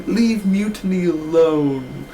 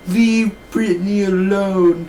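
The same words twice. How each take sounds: First: Slow, whiny, corrected name; mocking Cameron. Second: Slow, higher, whiny; mocking Cameron. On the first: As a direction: drag out Mutiny. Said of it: "She's like". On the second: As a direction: draw out the wrong name. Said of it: "She's literally like".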